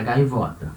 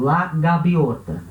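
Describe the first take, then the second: First: Said in the usual way. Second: Slow Spanish "La gaviota", V as B; careful Spanish model of GAVIOTA; Spanish pronunciation. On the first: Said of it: "porque em português é gaivota". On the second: Shown as a demonstration. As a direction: say GAVIOTA as "gabiota", drawn out. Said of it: "Em espanhol, o certo é gaviota".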